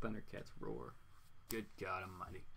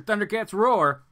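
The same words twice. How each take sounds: First: Very soft, low and weary aside; hushed, dropped-pitch disbelief; dismayed aside. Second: Loud, raised exclamation; big, loud punch on the title; emphatic put-down. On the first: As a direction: say it low, under your breath. Dismayed aside after laughing. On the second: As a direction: call out the title loudly. Jeering at a bad comic. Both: Real, not acted.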